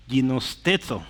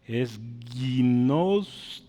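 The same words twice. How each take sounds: First: "Ginosteto" said again with a laugh, falling; repeated Greek word. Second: "ginosteto" said slowly, syllable by syllable; Greek pronunciation demo. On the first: Teacher repeats the word for students, with a laugh. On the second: Teacher shows the class how to say it, slow. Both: Shown as a demonstration. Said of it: "se va a decir algo así".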